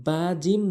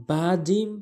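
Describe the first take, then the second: No difference in how they are said.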